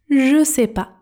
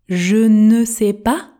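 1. « Ne » est supprimé ; « je » et « sais » restent séparés. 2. Tous les mots sont prononcés, y compris « ne ». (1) "devient je sais pas" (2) "donc je ne sais pas devient"

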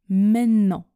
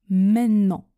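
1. Le t tombe et on allonge le n. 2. Le t tombe et on allonge le n.

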